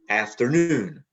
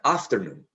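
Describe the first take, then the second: First: The main stress is on the last syllable. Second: The main stress is on the first syllable. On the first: The speaker calls it right. "noon has a primary stress and af in after has a secondary stress" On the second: The speaker calls it wrong. "It is not afternoon"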